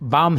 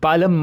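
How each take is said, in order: First: The word is said with a silent L. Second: The word is said with an audible L. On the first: The speaker calls it right. "बाम ही पढ़ना है इसे दोस्तों" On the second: The speaker calls it wrong. "ये बालम मत पढ़िए"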